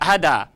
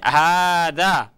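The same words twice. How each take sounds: First: The first vowel is short. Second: The first vowel is long. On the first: The speaker calls it wrong. "saya tidak membaca hada" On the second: The speaker calls it right. "tapi hada ... haknya panjang"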